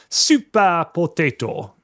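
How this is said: It is said with a Japanese pronunciation.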